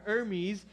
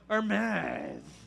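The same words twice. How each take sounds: First: The name is said with a Greek-style pronunciation. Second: The name is said with a French pronunciation. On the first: This is his original name. The speaker calls it right. "No, his name is Her- Hermes" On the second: This is how the French renamed him. The speaker calls it wrong. "the French took it and they're like, we're gonna call him Hermes"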